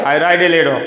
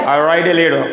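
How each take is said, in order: The two takes are said the same way.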